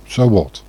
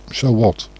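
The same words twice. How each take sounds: The two takes are said the same way.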